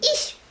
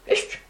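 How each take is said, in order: First: The word is said in the village form 'is'. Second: The word is said in the standard form 'yest'. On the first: This is how people in the village used to say it. "Раньше говорили, ись. У нас в деревне" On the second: This is how people say it nowadays. "Оказывается, есть"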